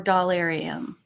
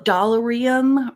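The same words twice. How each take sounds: First: "Dollarium" with stressed "AIR" in the middle; alternative pronunciation. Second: "Dollarium" with an unstressed "er" in the middle; first pronunciation. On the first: Vlogger offering the other way to say the name, "Dollarium" with "AIR". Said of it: "sometimes I say". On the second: Vlogger offering one way to say the name, "Dollarium" with "er". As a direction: say "Dollarium" as "doll-er-ee-um". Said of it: "Sometimes I say Dollarium". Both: Shown as a demonstration.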